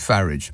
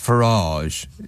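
First: The name is pronounced in a plain, everyday way. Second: The name is pronounced in a posh, upmarket way. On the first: It suits an ordinary, working-class audience. "If he's trying to get away with the flat hat and a pint routine, then it's probably Farage" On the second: It suits a wealthy, upper-class audience. "If he's talking to people at the Ritz, it's Farage"

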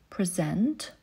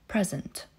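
First: The stress is on the second syllable. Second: The stress is on the first syllable. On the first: It is used as a verb. "w przypadku czasownika zazwyczaj akcentujemy drugą sylabę" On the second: It is used as a noun. "w przypadku rzeczownika pierwszą"

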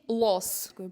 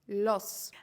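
First: The L is pronounced hard and dark. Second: The L is pronounced soft and light. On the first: The speaker calls it wrong. "І не кажіть los" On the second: The speaker calls it right. "Правильно казати м'яке л"

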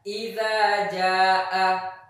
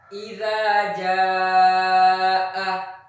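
First: The vowel in 'ja'a' is cut short. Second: The vowel in 'ja'a' is held long. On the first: The speaker calls it wrong. "bukan sekedar Iza Ja'a" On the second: The speaker calls it right. "Misalnya ketika membaca Iza Ja'a"

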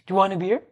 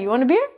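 First: It is said in full with 'do' pronounced. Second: It is said fast with the opening 'do' dropped. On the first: The speaker calls it right. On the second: The speaker calls it wrong.

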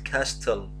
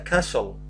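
First: The T sound is clearly pronounced. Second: The T sound is not pronounced. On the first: The speaker calls it wrong. "not castle" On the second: The speaker calls it right. "This is a castle, The T is silent"

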